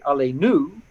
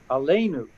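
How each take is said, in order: First: The stress falls on the final syllable. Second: The stress falls before the final syllable. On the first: The speaker calls it wrong. "if we mispronounced it" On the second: The speaker calls it right.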